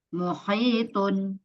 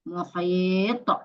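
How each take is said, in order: First: The word ends with a vowel and n. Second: The word ends on a bouncing stopped consonant.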